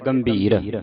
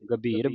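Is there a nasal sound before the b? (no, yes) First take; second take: yes; no. First: A nasal sound is heard before the b. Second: No nasal sound is heard before the b. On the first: The speaker calls it wrong. "ਸੰਗਤਾਂ ਪੜ ਜਾਂਦੀ ਹੈ ਗੰਭੀਰ" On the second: The speaker calls it right. "ਗੱਗੇ ਦੇ ਉੱਤੇ ਟਿੱਪੀ ਨਹੀਂ ਲੱਗੀ"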